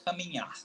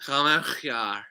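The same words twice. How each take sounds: First: Caminhar with the nh pushed through the nose, soft ending; nasal nh model. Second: Caminhar said with a harsh throaty h in place of the nasal nh; a learner's miss at Caminhar; wrong pronunciation. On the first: Teacher correcting his guest, nasal Caminhar. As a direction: show Caminhar again, quietly and clearly. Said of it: "You put N H in your nose". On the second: Guest mispronouncing Caminhar, throaty h. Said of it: "No, no, no". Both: Shown as a demonstration.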